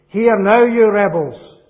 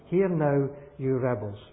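First: It is said loudly and angrily. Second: It is said calmly, without anger. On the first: The speaker calls it right. "I've got a picture now of a man who is angry" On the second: The speaker calls it wrong. "do you think he used that expression just as I'm saying it?"

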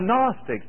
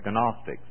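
First: The first consonant at the start is silent. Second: The first consonant at the start is sounded. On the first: The speaker calls it right. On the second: The speaker calls it wrong.

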